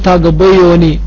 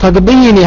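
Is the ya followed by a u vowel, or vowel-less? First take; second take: u vowel; vowel-less. First: The ya is followed by an audible u vowel. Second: The ya carries no vowel after it. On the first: The speaker calls it wrong. "ولا تقول تقضيوني، لأنها ستكون ثقيلة على اللسان" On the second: The speaker calls it right. "إذا كان في حالة الرفع تقول تقضيني حقي"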